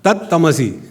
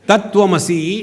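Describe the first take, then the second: First: The 'v' is dropped and the 't' doubled. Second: The 'tv' cluster is said with the 'v'.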